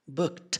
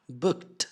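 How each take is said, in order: First: The final T sound is clearly released. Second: The final T sound is clearly released.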